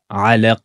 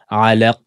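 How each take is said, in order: First: The word ends on a bouncing stopped consonant. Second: The same.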